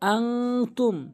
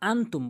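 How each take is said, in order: First: The n sound is held and nasalized. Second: The n sound is short and plain. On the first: The speaker calls it right. "আং আং নাকের ভিতর নেবেন, গুন্না করবেন" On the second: The speaker calls it wrong. "এরপর যে ভুলটি করে সেটি হচ্ছে আনতুম বলে"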